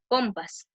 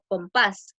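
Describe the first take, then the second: First: The stress falls on the first syllable. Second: The stress falls on the last syllable. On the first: The speaker calls it wrong. "si no le ponemos tilde, diría" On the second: The speaker calls it right. "es una palabra aguda porque lleva tilde en la A, en la última sílaba"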